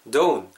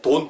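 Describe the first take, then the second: First: The vowel glides from o to u. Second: The vowel is a flat, pure o sound. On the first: The speaker calls it right. "모음이 오우 이렇게 한 번에 같이 간다" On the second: The speaker calls it wrong. "너무 이렇게 정직하게 모음 오 이렇게 발음하지 마시고"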